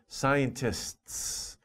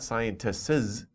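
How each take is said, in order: First: The final S adds no extra syllable. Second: The final S adds an extra syllable. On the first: The speaker calls it right. "it's just scientists" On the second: The speaker calls it wrong. "don't make an, an extra syllable for the S at the end. It's not scientists"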